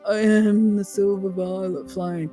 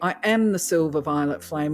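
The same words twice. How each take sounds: First: It is said weakly and timidly. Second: It is said firmly and with conviction. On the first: The speaker calls it wrong. "you're not doing a little wussy" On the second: The speaker calls it right. "with a little bit of firmness to the tone"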